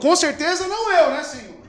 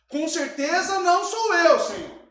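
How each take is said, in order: First: It is read as a statement, falling. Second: It is read as a question, rising.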